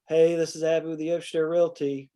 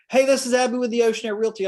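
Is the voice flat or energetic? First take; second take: flat; energetic. First: It is said flatly, with low energy. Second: It is said brightly, with high energy.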